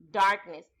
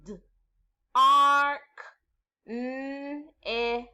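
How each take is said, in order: First: Said in the usual way. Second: "D, R, K, N, S" as drawn-out phonemes with pauses; segmented sounds. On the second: Shown as a demonstration. Teacher doing the next word together with pupils, segmented. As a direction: sound out "darkness", holding the ar and n. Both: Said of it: "The sounds are".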